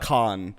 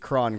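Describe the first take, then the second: First: The name begins with an H sound. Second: The name begins with an R sound. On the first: The speaker calls it wrong. "He's not ... it's not pronounced as an H" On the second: The speaker calls it right. "if there's an R in the middle of their name, it's still pronounced like an R"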